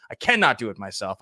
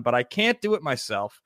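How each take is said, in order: First: "cannot" spelled out as two firm beats, cannot; stress on cannot. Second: Said in the usual way. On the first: Shown as a demonstration. Host insisting to viewers he needs his co-host, stressing "cannot". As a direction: lean on "cannot", give it its full weight.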